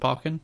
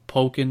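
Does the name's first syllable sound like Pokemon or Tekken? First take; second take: Tekken; Pokemon. First: The first syllable rhymes with the start of Tekken. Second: The first syllable sounds like poke. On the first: The name follows Tekken. The speaker calls it wrong. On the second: The name follows Pokemon. The speaker calls it right.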